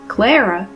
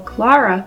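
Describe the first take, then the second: First: The name has an Americanized English pronunciation. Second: The name has its original Russian pronunciation. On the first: The speaker calls it wrong. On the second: The speaker calls it right.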